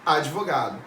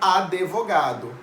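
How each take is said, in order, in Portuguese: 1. Nenhuma vogal soa entre o d e o v. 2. Uma vogal extra soa entre o d e o v. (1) "como que é o correto?" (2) "muita gente fala advogado"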